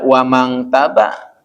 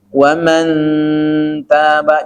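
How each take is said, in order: First: The nasal sounds like ng before the t. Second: The nasal is a muffled sound only close to n. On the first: The speaker calls it wrong. "Jangan dibaca wamang taba. Awas" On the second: The speaker calls it right. "nunnya itu hanya mendekati huruf n"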